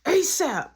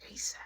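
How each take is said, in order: First: High, loud urgent order; raised-voice mimicked command; loud demand. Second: Soft, brief echo of a demand; low-key muttered repeat; quiet echo. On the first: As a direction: call it out insistently. Caller demands the door opened. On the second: Retold or imitated. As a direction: repeat it under your breath.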